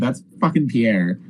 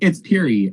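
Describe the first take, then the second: First: The name is said like 'Pierre'. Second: The name is said like 'Peary'. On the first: This is how the narrator says the street name. "I'm like, dude, that's fucking Pierre" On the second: This is how the friend says the street name. "he's like, no, it's Peary"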